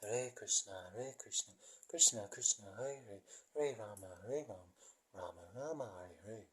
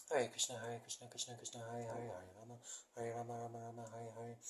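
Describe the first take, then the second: First: Slow mantra with falling, swaying tune; slowly. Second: Said in the usual way. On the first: Shown as a demonstration. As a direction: draw out each name, softly, letting it fall. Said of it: "Maybe one more time slowly". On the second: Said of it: "which just goes".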